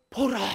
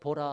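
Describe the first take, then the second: First: It is exclaimed with startled astonishment. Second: It is said flatly, without surprise. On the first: The speaker calls it right. "깜짝 놀라는 거예요" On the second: The speaker calls it wrong. "그냥 보라 하면 안 되잖아요"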